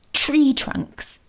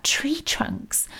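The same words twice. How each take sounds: First: "Tree trunks." said aloud, voiced, falling with sudden understanding; dawning realisation. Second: Whispered, wondering "Tree trunks?" softly to himself; puzzled whisper. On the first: Mo realising Nan's words were a message, dawning realisation. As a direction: land "Tree trunks." as the penny drops. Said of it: "It had been a message for him". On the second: Mo alone in the dark, puzzling over Nan's words, whispered. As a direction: breathe "Tree trunks?" as a baffled question. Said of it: "What had Nan been going on about". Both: A narrator's reading.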